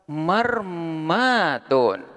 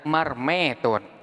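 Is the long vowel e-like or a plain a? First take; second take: plain a; e-like. First: The long vowel is a plain open a. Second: The long vowel is tilted toward e.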